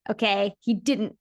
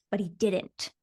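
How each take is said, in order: First: Slow, weighty "he didn't", leaning on "didn't"; stress on didn't. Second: Said in the usual way. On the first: Shown as a demonstration. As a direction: land "didn't" slowly with emphasis.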